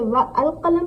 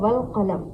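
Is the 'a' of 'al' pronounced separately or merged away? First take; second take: separate; merged. First: The 'a' of 'al' is pronounced separately. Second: The 'a' of 'al' is dropped, words merged. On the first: The speaker calls it wrong. "तो क्या हम इसे व अल कलम पढ़ेंगे?" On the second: The speaker calls it right. "वाउ को हम सीधा लाम के साथ मिलाएंगे"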